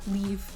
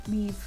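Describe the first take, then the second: The two takes are said the same way.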